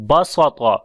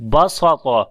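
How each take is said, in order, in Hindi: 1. बीच की स की आवाज़ भारी और ज़ोरदार है। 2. बीच की स की आवाज़ भारी और ज़ोरदार है।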